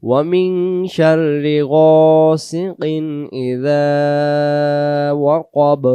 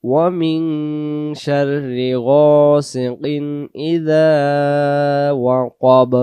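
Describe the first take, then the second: The two takes are said the same way.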